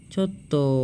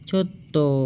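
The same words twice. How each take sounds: Both takes have the same delivery.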